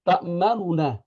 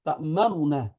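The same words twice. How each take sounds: No difference in how they are said.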